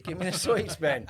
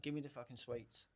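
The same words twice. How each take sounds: First: Higher and louder stern order; stern demand. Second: Quiet warning. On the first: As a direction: snap it as the second telling. Second, sterner demand for sweets. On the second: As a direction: keep it down, a calm threat to the kid. First telling the boy off. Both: Retold or imitated.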